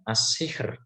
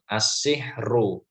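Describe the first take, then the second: First: The r is light, ending the word with no vowel. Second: The r is heavy, followed by a u vowel. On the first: The reader pauses at the end of the word. "apabila diwakofkan ya, maka dia dibaca eh, tipis ya" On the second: The word is read on without pausing. "kalau ro dibaca doma itu kan mestinya dibaca tebal"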